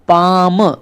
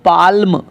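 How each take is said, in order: First: No l sound is pronounced before the m. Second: An l sound is pronounced before the m. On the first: The speaker calls it right. "इनका सही उच्चारण रहेगा पाम" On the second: The speaker calls it wrong. "ऐसे नहीं पढ़ेंगे"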